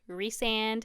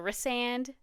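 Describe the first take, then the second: First: The first vowel is a long 'ee' sound. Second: The first vowel is a short 'ih' sound. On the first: "I think it is Reese-sand" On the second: "they prefer the pronunciation Riss"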